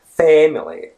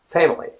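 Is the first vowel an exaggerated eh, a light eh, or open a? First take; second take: exaggerated eh; light eh. First: The first vowel is a heavily exaggerated eh. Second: The first vowel is a light, relaxed eh. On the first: The speaker calls it wrong. "it's not very stressed. It's not family or something like that" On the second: The speaker calls it right. "but it's family"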